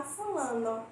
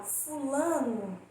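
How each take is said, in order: First: Fulano ending in a clear o; final o as o. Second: Fulano ending in a u sound; final o as u. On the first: Teacher giving the harder careful form of fulano. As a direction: say fulano with a full o at the end. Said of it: "do que falar fulano". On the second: Teacher giving the easy spoken form of fulano. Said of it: "quando eu falo fulano". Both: Shown as a demonstration.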